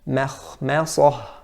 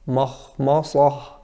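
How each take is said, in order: First: The m sounds light and thin. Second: The m sounds heavy and thick. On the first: The speaker calls it right. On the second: The speaker calls it wrong.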